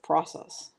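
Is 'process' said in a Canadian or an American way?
American. It is said with an American pronunciation. "instead of process"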